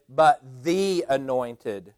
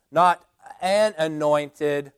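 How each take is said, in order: First: "the" said as a long, weighted "thee"; slowly single out "the" as the one and only; deliberate "thee" before "anointed"; stress on THE. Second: "an" set apart, slowly, with weight; slow, deliberate emphasis on "an"; stress on AN. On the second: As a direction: lean on "an" as the word being rejected. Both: Shown as a demonstration. Contrasting indefinite with definite article.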